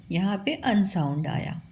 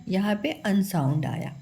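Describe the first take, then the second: No difference in how they are said.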